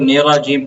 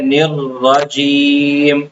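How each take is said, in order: First: The r sound is short and single. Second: The r sound is held long and doubled. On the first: The speaker calls it wrong. "बाज़ लोग निराजीम पढ़ लेते हैं" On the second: The speaker calls it right. "इसका सही तलफ़्फ़ुज़ है"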